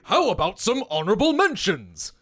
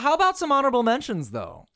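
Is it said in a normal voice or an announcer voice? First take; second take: announcer voice; normal voice. First: It is said in a deep announcer voice. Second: It is said in his normal speaking voice.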